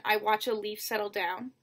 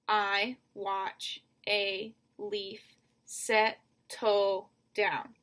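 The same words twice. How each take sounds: First: Said in the usual way. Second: Very slow, each syllable of "I watch a leaf settle down" set apart; "settle" split in two, all words spaced wide. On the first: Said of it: "The second line". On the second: Shown as a demonstration. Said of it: "So seven syllables".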